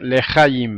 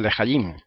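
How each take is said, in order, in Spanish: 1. El acento está en la sílaba central. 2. El acento está en la última sílaba. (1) "como cuando dicen lehayim" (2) "por lo tanto sería lehayim"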